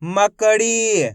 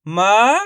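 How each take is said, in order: First: "मकड़ी" slowly as one joined word; slow whole-word read of "मकड़ी"; blended, drawn-out word. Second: "मकड़ी" broken into ma, ka, ree with long pauses; "मकड़ी" in held, isolated syllables. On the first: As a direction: link the syllables of "मकड़ी", final ee held. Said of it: "आपस में मिला के पढ़ेंगे". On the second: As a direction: sound out each syllable of "मकड़ी" separately. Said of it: "direct मात्रा का उच्चारण करके". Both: Shown as a demonstration.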